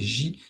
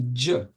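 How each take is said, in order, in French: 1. La consonne est un son 'zh' doux, comme dans measure. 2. La consonne est un son 'dj', comme dans jam. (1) "en arabe moderne, tout le monde prononce J" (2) "en arabe coranique, euh, théoriquement, c'est dj"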